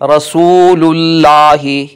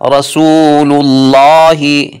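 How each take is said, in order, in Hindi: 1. अल्लाह में L की आवाज़ बारीक और हल्की होती है। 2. अल्लाह में L की आवाज़ मोटी और भारी होती है। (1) "लफ्ज़ अल्लाह को बारीक आवाज़ में पढ़ना गलत होगा" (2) "इसलिए हम इसको मोटी आवाज़ में पढ़ेंगे"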